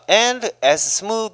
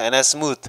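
First: Each word is said clearly and separately. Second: The first words are reduced and run together. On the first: "저처럼 이렇게 깔끔하게 해 주면 참 좋은데" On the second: "이런 부분이 조금 어렵죠"

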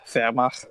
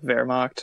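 First: The word is said with German sounds. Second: The word is said with English sounds. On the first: The speaker calls it right. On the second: The speaker calls it wrong.

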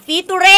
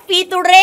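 No difference in how they are said.

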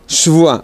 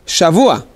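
First: The first syllable has a reduced 'e' vowel. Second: The first syllable has a full 'a' vowel. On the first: It means a week of something. The speaker calls it wrong. "לא שבוע" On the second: It is the plain word for a week. The speaker calls it right. "אני צריך לנקד בפתח השין"

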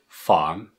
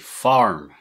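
First: The R after the vowel is not pronounced. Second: The R after the vowel is strongly pronounced. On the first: This is the standard way of saying it. "Farm is normal" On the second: This is how it is said in Bristol. "In Bristol, we say farm"

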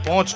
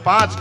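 First: It is said with an 'o' vowel, northern dialect. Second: It is said with an 'aa' vowel, standard form. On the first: "અહીંયા પોંચ" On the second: "આ 1 2 3 4 ને આપણે 5 કહીએ"

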